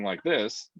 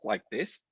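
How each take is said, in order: First: The voice is lower, relaxed and ordinary. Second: The voice is high, squeaky and tight. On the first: "instead of just talking like this" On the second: "squeak and tighten my voice when I talk like this"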